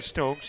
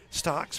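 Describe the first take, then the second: First: The vowel sounds like the one in 'stoke'. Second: The vowel sounds like the one in 'stock'. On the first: The speaker calls it right. "But she is actually Stokes" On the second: The speaker calls it wrong. "she's been Stocks for about an inning and a half"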